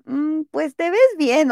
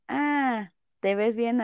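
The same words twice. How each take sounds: First: Higher and slow, dragging the Mm with doubt; grudging compliment. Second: Soft, easy and honest, no hesitation; just mean it gently; sincere compliment. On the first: Friend reluctantly approving an outfit, slow and doubtful. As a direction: sound like you don't really believe it. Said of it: "el tonillo es como de". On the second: Friend honestly telling her friend she looks good, soft and sincere. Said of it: "la entonación que le das realmente te cambia". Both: Retold or imitated.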